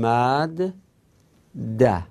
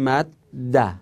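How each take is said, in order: First: Two separate d sounds are pronounced. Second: One long, doubled d sound is pronounced. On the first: "اگه نچسبونیم ... میگیم مد ده، دو تا دال رو ساده میگیم" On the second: "اگه اینا رو به هم بچسبونیم میگیم مد ده"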